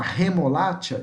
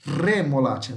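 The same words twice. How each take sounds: First: "remolacha" starting with a breathy h, no trill; Brazilian-style aspirated R on "remolacha". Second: "Remolacha" with a strongly rolled initial R; Spanish tongue-tip trill on "Remolacha"; vibrating R. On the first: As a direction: say "remolacha" as he-mo-LA-tcha. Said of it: "está errado". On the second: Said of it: "vibrando, ó". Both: Shown as a demonstration.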